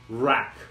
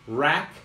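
First: The word begins with an English R sound. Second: The word begins with an English R sound.

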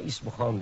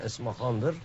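First: The name starts with an 'i' sound. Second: The name starts with an 'e' sound. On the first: This is the common local form of the name. The speaker calls it wrong. "İsmihan diyorlar" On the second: This is the original form of the name. The speaker calls it right. "Yani Esmahan'dır aslında"

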